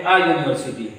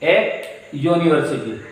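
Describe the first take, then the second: First: "आ university" with the article as an open ah. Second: "ए university" with the article as the letter name ay. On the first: Teacher showing the spoken article, "आ university" with ah. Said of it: "अब हम कहेंगे". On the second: Teacher naming the article, "ए university" with a separate ay. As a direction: say "ए" as ay, pause, then university. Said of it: "अब हम ए लेके आएंगे". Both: Shown as a demonstration.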